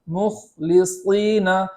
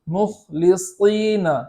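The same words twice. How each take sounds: Both takes have the same delivery.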